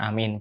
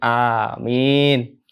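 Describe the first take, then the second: First: The vowels are clipped short. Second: The vowels are drawn out long. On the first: The speaker calls it wrong. "Jangan amin beda arti" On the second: The speaker calls it right. "mim kasrohnya harus panjang. Gitu ya. Jadi amin"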